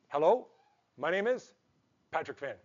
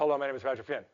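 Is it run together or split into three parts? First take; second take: three parts; run together. First: It is split into three parts with pauses. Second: It is run together in one bland phrase.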